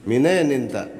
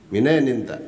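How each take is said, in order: The two takes are said the same way.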